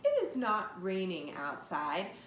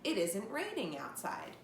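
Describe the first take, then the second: First: "Is not" is said as two separate words. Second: "Is not" is squeezed into one word. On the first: "instead of saying" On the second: "just a faster way of saying the same two words"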